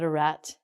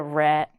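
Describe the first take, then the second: First: The final T is clearly pronounced. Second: The final T is not clearly pronounced. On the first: The speaker calls it wrong. "not a rat" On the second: The speaker calls it right. "it's called a rat"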